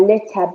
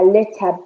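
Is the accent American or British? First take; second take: British; British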